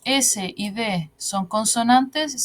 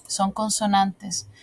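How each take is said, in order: First: Slow "S y D son consonantes", left open as a question. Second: Slow "son consonantes", dropping to a statement; answering. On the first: Teacher quizzing the class on S and D, questioning. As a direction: ask "S y D son consonantes" slowly, ending unresolved. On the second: Teacher confirming the answer for the class, answering. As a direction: answer "son consonantes" slowly, with a settled ending. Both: Shown as a demonstration.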